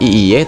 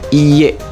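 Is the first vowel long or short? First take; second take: short; long. First: The first vowel is short. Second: The first vowel is long. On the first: The speaker calls it wrong. "bukan iye" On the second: The speaker calls it right. "Jadi i-nya panjang"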